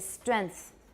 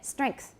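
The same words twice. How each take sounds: First: The nasal is plain n with no k sound. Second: A velar nasal is followed by a k sound. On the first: The speaker calls it wrong. "a lot of Taiwanese say strength" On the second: The speaker calls it right. "the way I say this normally ... Can you all hear the K?"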